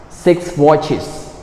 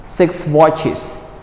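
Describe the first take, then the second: No difference in how they are said.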